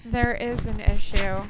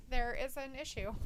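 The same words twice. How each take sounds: First: Slow, booming into the mic; right in your ear. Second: Said in the usual way. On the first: Real, not acted. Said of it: "put it closer to my mouth". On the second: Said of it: "But Luke says".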